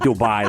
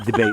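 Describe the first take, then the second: First: The name ends with a 'buy' sound. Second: The name ends with a 'bay' sound. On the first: This is how outsiders say it. The speaker calls it wrong. "not Dubai" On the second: This is how people who live there say it. The speaker calls it right. "It's a debate"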